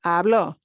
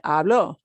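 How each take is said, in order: First: The stress is on the last syllable. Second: The stress is on the last syllable.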